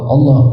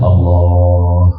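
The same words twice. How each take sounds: First: It is said forcefully and pressed. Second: It is said softly and gently.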